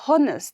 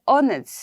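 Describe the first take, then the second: First: The word starts with an audible h sound. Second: The word starts with a vowel, no h sound. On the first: The speaker calls it wrong. "I don't say honest" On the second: The speaker calls it right. "I say honest. So, it is, H is a silent word in honest"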